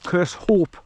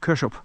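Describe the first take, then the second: First: The name ends with a full 'hope' sound. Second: The name ends with a short 'up' sound. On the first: This is how English people say it. "we we English would say curse, curse hope" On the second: This is how Scottish people say it. "you pronounce the Kersh up like a U P on the end"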